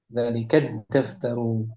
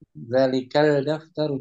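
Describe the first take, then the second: First: The article's L merges into a doubled D. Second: The article is said with a clear L sound. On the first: The speaker calls it right. "lebih ringan dibacanya" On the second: The speaker calls it wrong. "Jangan al daftaru, zalikal daftaru jangan"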